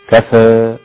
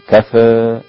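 First: The final vowel leans slightly toward ee. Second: The same.

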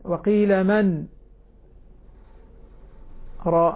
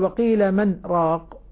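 First: The pause after 'man' is drawn out too long. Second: The pause after 'man' is rushed and barely there. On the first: "هذه زيادة هذه مبالغة فيها" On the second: "هذه سريعة"

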